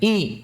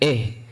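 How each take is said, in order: First: The vowel is a clear i sound. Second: The vowel is an e sound. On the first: The speaker calls it right. "kita sempurnakan kasrahnya" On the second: The speaker calls it wrong. "bukan eh"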